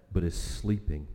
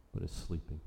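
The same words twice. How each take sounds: First: Said in the usual way. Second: Quiet, softer repeat of the phrase; hushed echo. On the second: Real, not acted. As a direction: repeat it much softer, almost to yourself. Echoed line, much quieter.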